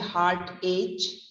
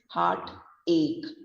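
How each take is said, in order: First: The second part ends with a ch sound. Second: The second part ends with a k sound. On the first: The speaker calls it wrong. "You don't say heart H" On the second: The speaker calls it right. "but it is heart ache"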